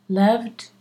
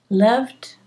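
The two takes are said the same way.

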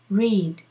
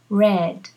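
First: The vowel is long, like in 'seed'. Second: The vowel is short, like in 'bed'. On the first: It is the present-tense verb form. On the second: It is the past participle form.

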